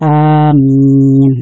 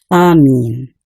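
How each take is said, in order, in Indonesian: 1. Vokal pertama panjang dan m tunggal. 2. Vokal pertama pendek dan m tunggal. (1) "dibaca panjang, a-nya, alifnya dipanjangkan" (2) "Amin dibaca pendek"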